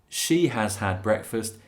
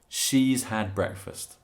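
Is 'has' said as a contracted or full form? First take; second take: full; contracted. First: Has is said as a separate full word. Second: Has is squeezed onto she as 's. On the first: "instead of" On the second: "she's had"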